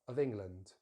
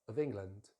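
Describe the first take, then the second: The two takes are said the same way.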